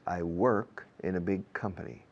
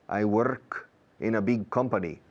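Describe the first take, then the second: First: The R in work is curled and sounded. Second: The R in work is tapped, Spanish-style. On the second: "Prefiero eso"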